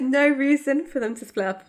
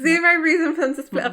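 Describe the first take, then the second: First: "no" said raised and firm; stress on no. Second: "zero" hit harder, louder than usual; stress on zero. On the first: Insisting to co-host they never split up, stress on "no". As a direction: lean hard on "no". Restating the point for emphasis. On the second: Insisting to co-host they never split up, heavy stress on "zero". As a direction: punch "zero" loudly. Repeats with stronger word for emphasis. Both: Real, not acted.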